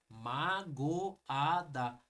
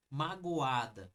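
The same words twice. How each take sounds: First: "magoada" stretched, each syllable apart; slow syllable split. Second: "magoada" said slowly, go and a apart; syllables pulled apart. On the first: Teacher repeating the word for the class, slow. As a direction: say "magoada" very slowly. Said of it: "O a, ele entra praticamente como uma sílaba". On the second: Teacher to class, sounding out "magoada" slowly. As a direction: drag "magoada" so the a stands alone. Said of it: "não tem como falar o go e o a". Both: Shown as a demonstration.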